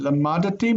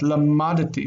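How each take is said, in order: First: A short vowel separates the D and T. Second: The same.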